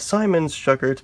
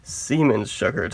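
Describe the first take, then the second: First: The name is pronounced the English way. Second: The name is pronounced the German way. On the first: The speaker calls it wrong. "I'm no German, so I used to call it the Siemens Schuckert, but evidently that's the wrong pronunciation" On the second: The speaker calls it right. "It has to be Siemens Schuckert"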